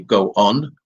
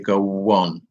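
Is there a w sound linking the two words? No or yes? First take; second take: no; yes. First: The words are said without a linking w sound. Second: A w sound links the two words together. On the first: The speaker calls it wrong. "we don't say go on" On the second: The speaker calls it right. "we say go on"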